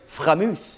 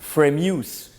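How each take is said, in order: First: It is said with a French accent. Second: It is said with an American accent. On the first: "Or maybe the French" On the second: "you Americans probably want to say Framus"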